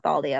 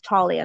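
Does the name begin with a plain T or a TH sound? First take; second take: TH; plain T. First: The name begins with a TH sound. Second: The name begins with a plain T sound. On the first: The speaker calls it wrong. "I keep saying TH" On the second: The speaker calls it right. "it's just T"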